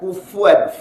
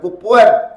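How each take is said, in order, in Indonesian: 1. Konsonan di tengah itu bunyi f yang lembut. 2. Konsonan di tengah itu bunyi p yang keras. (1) "fu fu" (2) "Bukan kupuan"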